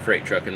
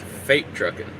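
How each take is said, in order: First: The first word is said as 'freight'. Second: The first word is said as 'fate'. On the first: The speaker calls it wrong. "it's not Freight Trucking" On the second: The speaker calls it right. "It's Fate Trucking"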